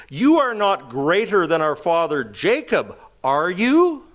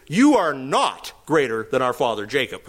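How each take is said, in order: First: "You are not greater than our father Jacob, are you?" with the question lifting up on the final "you"; read as a question. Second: "You are not greater than our father Jacob" stated flat and firm with weight on "You" and a falling end; emphatic statement. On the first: Reading the verse as written, tag question rising at the end. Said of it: "this isn't a question". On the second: Woman flatly telling Jesus he is not greater, emphatic statement. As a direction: state it, hit "You", no question. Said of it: "And the emphatic thing is". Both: Shown as a demonstration.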